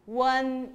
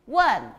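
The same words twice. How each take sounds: First: 원 drawn out on a level pitch. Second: 원 struck hard, falling fast; fourth tone. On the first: Teacher reads out the pinyin syllable, 원 held level. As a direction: hold 원 even, without a fall. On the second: Teacher models fourth tone for students, 원 sharply falling. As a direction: hit 원 and drop the pitch. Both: Shown as a demonstration. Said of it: "사성으로 해보세요".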